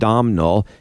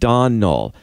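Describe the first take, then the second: First: The name is said with an m sound. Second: The name is said without an m sound. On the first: The speaker calls it wrong. "pronounce it the way it's spelled" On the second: The speaker calls it right. "instead of"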